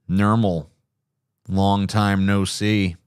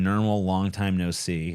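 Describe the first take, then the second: First: Slow, low, deadpan lazy cat; low lazy Garfield voice. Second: Said in the usual way. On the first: Shown as a demonstration. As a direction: drag it out, lazy and heavy. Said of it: "down here kind of voice".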